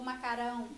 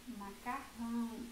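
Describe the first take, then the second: First: The middle R is a soft sound. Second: The middle R is a strong sound. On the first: The speaker calls it wrong. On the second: The speaker calls it right.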